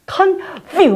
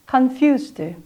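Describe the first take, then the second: First: The f is made with a hard lip bite. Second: The f is made with a light lip touch. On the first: The speaker calls it wrong. "어떻게 하는 사람이냐면 confuse 막 이러면서 하거든요" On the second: The speaker calls it right. "우리 입술의 안쪽으로 살짝 들어가는 듯한 느낌을 주면서"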